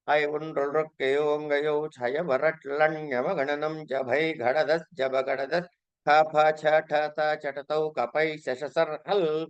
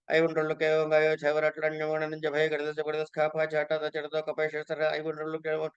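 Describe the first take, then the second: First: It is recited at a normal, clear speed. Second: It is recited fast, as in practice.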